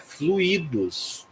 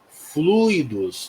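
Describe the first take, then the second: First: The stress falls on the second syllable. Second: The stress falls on the first syllable. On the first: The speaker calls it wrong. "não é fluidos" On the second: The speaker calls it right. "A pronúncia é fluidos"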